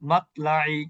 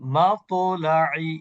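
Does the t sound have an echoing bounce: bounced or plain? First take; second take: plain; bounced. First: The t sound is plain, with no echoing bounce. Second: The t sound has a slight echoing bounce. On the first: The speaker calls it wrong. "এটা হচ্ছে কলকলা না করে পড়া।" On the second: The speaker calls it right. "কলকলা সহ পড়লে সুন্দর হবে।"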